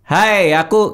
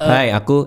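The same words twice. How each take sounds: First: The voice is squeezed and strained from the throat. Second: The voice is deep and supported from the belly. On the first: The speaker calls it wrong. "Jadi untuk melakukan suara jangan nekat leher. Jangan kayak" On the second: The speaker calls it right. "dari dari perut"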